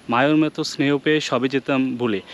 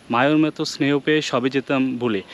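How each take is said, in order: The two takes are said the same way.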